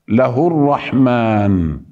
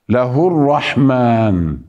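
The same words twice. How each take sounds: The two takes are said the same way.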